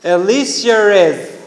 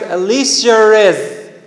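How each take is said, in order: First: An r sound links the two vowels, British-style. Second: The same.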